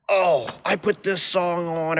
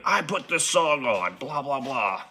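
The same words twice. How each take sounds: First: High, slow, drawn-out mock voice; mimicking the pushy bar guy. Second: Higher, slower put-on voice for the guy's line; mock the guy who keeps hovering; mimicking the pushy bar guy. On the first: Narrator mocks the clingy guy at the bar, slow and high. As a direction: lay it on thick as the annoying guy. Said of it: "he's like". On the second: Narrator mimics the pushy bar guy, slow and high. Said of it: "he go".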